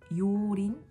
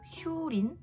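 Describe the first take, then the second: First: The name begins with a plain yo sound. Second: The name begins with a hyu sound. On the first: "ucapkan seperti Yorin" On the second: "atau Hyurin"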